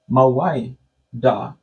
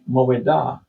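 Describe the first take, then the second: First: The middle has an eye-like i sound. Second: The middle vowel is a plain eh sound. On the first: This is the form the speaker's group uses. "but we say ... This is an I sound" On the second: This is the nineteenth-century Hebrew form. "in the nineteenth century Hebrew, you say"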